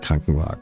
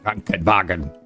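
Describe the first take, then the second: First: The word is said softly and smoothly. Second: The word is said harshly and over-articulated. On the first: The speaker calls it right. "It's much more softer" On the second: The speaker calls it wrong. "It's not pronounced like that in the real life"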